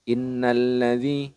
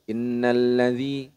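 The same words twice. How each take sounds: Both takes have the same delivery.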